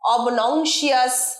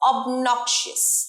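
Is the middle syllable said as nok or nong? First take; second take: nong; nok. First: The middle syllable sounds like nong. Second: The middle syllable sounds like nok. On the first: The speaker calls it wrong. "নং বলে অনেকে, কিন্তু নয়" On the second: The speaker calls it right. "এটার সঠিক উচ্চারণ অবনক্সিয়াস"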